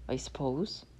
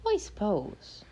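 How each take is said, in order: First: Said in the usual way. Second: High little leprechaun voice. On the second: Acted. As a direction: pitch it up like the leprechaun. Leprechaun's voice, pitched up.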